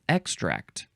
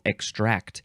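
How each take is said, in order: First: The stress is on the first syllable. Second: The stress is on the second syllable. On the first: "you would emphasize the first syllable" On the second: "Emphasize the second syllable"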